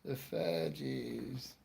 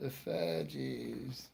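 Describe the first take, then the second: First: The band name is said as 'fudgies'. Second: The same.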